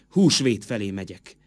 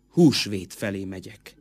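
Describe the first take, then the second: No difference in how they are said.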